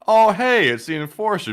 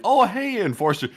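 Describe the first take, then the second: First: Louder, higher startled callout; loud recognition. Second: Bright, friendly hello pitched high; friendly greeting. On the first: Fan loudly outing the streamer in public. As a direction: blurt out his name, a bit too loud. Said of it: "and not". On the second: Fan spotting the streamer, cheerful high hello. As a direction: greet him like a happy fan. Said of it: "approach with a friendly". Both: Pretend.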